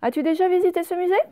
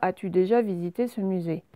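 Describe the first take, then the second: First: The voice rises at the end. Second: The voice stays flat to the end. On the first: The speaker calls it right. "On met une intonation pour montrer qu'on pose une question" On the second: The speaker calls it wrong. "on ne dit pas"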